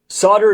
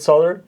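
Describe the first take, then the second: First: The L sound is left silent in the word. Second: The L sound is pronounced in the word. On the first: It is the way people say it here. "is the way we say it here" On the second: It is the way some other people say it. "Maybe some people say it solder"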